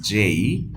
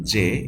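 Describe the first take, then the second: First: Drawn-out "জেই" with rising glide; "জেই" as a long "jay-ee"; corrected pronunciation. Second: "জে" without the final glide; the common mistaken "জে"; wrong pronunciation. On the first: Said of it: "it is জেই". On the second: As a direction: say "জে" as a plain single vowel. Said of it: "not জে". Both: Shown as a demonstration.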